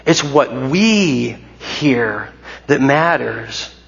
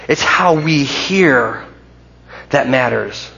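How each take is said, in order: First: Very slow, hanging on we before hear that matters; stress on what we hear. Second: Slow, leaning on hear in it's how we hear; stress on hear. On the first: Preacher making the point clear to the church, very slow stress. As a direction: stretch it out and press what we hear. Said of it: "I want to be clear here". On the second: Preacher contrasting saying and hearing, slow stress on hear. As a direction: lay weight on hear, slowly. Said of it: "not just what we say that matters". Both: Shown as a demonstration.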